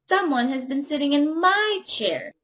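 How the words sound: It is said in a medium-sized voice.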